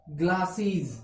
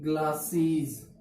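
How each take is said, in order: First: Said in the usual way. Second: glasses drawn out slowly, sound by sound; slow teaching demo. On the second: Shown as a demonstration. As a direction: say glasses slowly so the class hears each part. (Glasses को धीरे-धीरे साफ़ बोलो) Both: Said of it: "कैसे लिखते हैं?".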